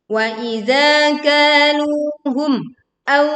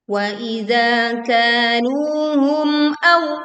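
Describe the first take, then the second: First: The voice is cut off briefly after kaluhum. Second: The voice flows on without a break after kaluhum. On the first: The speaker calls it wrong. "Terjadi pemutusan suara di sini dan itu adalah keliru" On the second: The speaker calls it right. "kita baca jelas mim sukun tanpa memutus suaranya"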